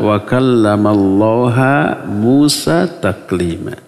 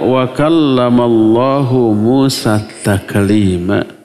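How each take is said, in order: First: The word Allah ends with a 'ha' sound. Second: The word Allah ends with a 'hu' sound. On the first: God is the one spoken to. The speaker calls it wrong. "Allahnya dibaca ha" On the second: God is the one who speaks. The speaker calls it right. "hu-nya itu kenapa dibaca hu? Karena Allah fa'il atau subjek"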